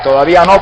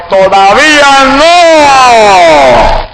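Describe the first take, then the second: First: Said in the usual way. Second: High, very slow, loud booming command; God's thundering shout. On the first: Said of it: "entendía". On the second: Retold or imitated. God's voice shouting at the startled man, thundering. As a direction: boom it out like thunder from heaven. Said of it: "y la voz me gritó".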